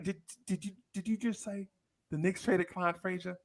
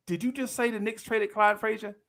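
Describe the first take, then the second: First: Much softer, higher, stammering in shock; mock stunned kid. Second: Said in the usual way. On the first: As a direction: whisper it as if the world ended.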